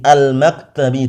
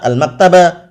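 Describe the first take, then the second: First: The word ends with an i vowel. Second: The word ends with an a vowel. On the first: The speaker calls it right. "al-maktabi dengan kasrah" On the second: The speaker calls it wrong. "tidak boleh juga dibaca al-maktaba"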